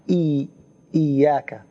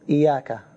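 First: The y sound is doubled and held long. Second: The y sound is single and short. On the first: It means you alone. The speaker calls it right. "there is shadda" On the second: It means the light of the sun. The speaker calls it wrong. "Some people say iyaka"

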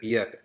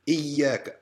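First: The middle consonant is short and single. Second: The middle consonant is held long and doubled. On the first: The speaker calls it wrong. "So you're not going to say Iyaka" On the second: The speaker calls it right. "Double it up"

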